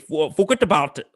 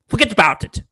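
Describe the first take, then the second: First: It is said in a stiff, polished British accent. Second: It is said in a New York accent, without r. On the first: "with his British accent go" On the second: "No R's"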